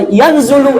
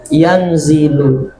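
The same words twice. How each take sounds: First: Yanzulu with a u in the middle syllable, the ustaz's mistaken reading; wrong yanzulu. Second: Yanzilu said slowly with a clear i in the middle syllable, low and drawn out; correct yanzilu. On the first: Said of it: "eh, salah lagi". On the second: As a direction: model the right reading yanzilu, stretching the zi. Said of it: "Harus kibaca yanzilu". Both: Shown as a demonstration.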